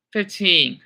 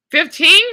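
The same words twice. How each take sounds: First: Said in the usual way. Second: High rising Fifteen, asked loud; questioning guess. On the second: Real, not acted. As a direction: toss out Fifteen as a surprised question.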